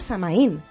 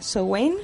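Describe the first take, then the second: First: It is said the Galician way, stressing the í. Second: It is said with the Irish pronunciation. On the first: "Samaín con acento en la I" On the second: "es un término irlandés, ¿no?, que se pronuncia Samhain"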